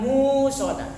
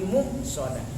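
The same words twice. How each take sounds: First: The first vowel is drawn out long. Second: The first vowel is cut short at a stop. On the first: The speaker calls it wrong. "Itu bukan musadah" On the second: The speaker calls it right. "tapi musadah"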